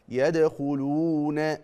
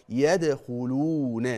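No difference in how they are said.

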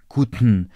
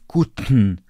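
The two takes are said the same way.

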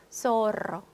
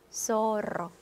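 First: The first consonant sounds like English s. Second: The first consonant sounds like English s.

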